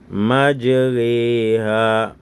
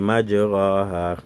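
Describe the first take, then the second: First: The vowel after r leans toward e. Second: The vowel after r is an open a. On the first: The speaker calls it right. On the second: The speaker calls it wrong.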